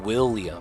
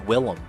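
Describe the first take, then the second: First: The name is said with a 'yuh' glide. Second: The name is said without a 'yuh' glide. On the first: The speaker calls it wrong. "I was saying William. Okay, my bad. I had that wrong" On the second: The speaker calls it right. "there's no A, so it's Willem"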